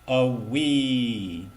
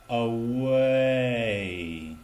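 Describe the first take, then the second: First: The first vowel is short, jumping quickly to ee. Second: The first vowel is held long, gliding slowly. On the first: The speaker calls it wrong. "not a wee" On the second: The speaker calls it right. "but away"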